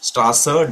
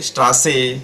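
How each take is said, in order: First: The word ends in a short 'a' vowel. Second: The word ends in a clear 'e' vowel. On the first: The speaker calls it right. "ई म्हणजे" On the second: The speaker calls it wrong. "डांके, बिटे, स्ट्रासे असं नाही म्हणायचं आहे"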